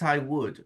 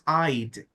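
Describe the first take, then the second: First: Two full words are said, would fully pronounced. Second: One short syllable is said, would reduced. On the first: "You know it's I would" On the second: "the contraction is pronounced I'd"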